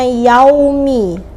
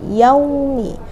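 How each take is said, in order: First: The 'au' sound is pushed hard, not softly. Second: The 'au' sound is glided softly and lightly. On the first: The speaker calls it wrong. "jangan sampai kita bacanya yaumi" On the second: The speaker calls it right. "yaumi itu namanya harful lin atau huruf lain"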